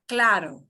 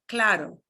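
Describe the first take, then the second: No difference in how they are said.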